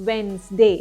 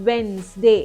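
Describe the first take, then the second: Both takes have the same delivery.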